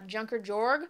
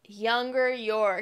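First: The name begins with an English J sound. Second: The name begins with a Y sound. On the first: The speaker calls it wrong. "I said it totally wrong" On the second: The speaker calls it right. "it's German, and so the J is a little weird"

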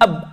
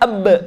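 First: The final b is closed off without release. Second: The final b is released with a bounce. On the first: The speaker calls it wrong. "dalam Quran tidak ada bunyi ab" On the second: The speaker calls it right. "adanya ab"

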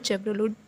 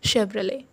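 First: It starts with 'ch' and ends with a 't'. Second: It starts with 'sh' and the final 't' is silent. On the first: The speaker calls it wrong. "It's all wrong guys" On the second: The speaker calls it right. "The correct pronunciation is शेवरले टी silent"

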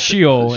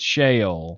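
First: It is said in a Northern accent. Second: It is said in a Southern accent. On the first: "If you're in the North, it's Sheol" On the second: "if you're in the South, it's Sheol"

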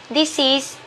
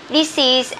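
The two takes are said the same way.

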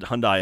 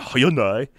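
First: The name is said the American way. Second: The name is said a non-American way. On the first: This is how it is said in America. "Hyundai in America" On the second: This is how it is said outside America. "Hyundai in other countries"

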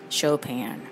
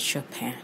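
First: The final N sound is clearly pronounced. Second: The final N sound is barely pronounced. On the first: "the way that everybody says Chopin" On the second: "if you care to not pronounce the N so much"

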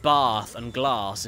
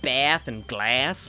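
First: The words are said in a British accent. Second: The words are said in an American accent. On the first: "the way we say certain words" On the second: "instead of"

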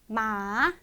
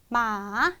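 The two takes are said the same way.

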